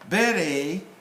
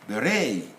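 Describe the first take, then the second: First: The stress is on the first syllable. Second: The stress is on the second syllable. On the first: This is the British way. "British will pronounce will stress on the first syllable" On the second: This is the American way. "American on the second one"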